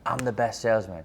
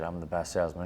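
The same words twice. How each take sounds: First: It is yelled loudly with strong force. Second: It is said at a normal, calm volume.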